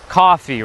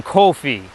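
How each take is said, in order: First: "coffee" with an open ah, KAH-fee; California pronunciation. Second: "coffee" with a rounded oh, KOH-fee; Brooklyn-style long vowel in "coffee"; Brooklyn pronunciation. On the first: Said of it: "the same way I say it". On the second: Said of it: "people in Brooklyn are saying". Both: Shown as a demonstration.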